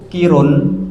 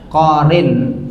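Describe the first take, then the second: First: The vowels are i then u. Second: The vowels are o then i. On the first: The speaker calls it wrong. "Yang tidak boleh niku kirun" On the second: The speaker calls it right. "bisa korin. Boleh"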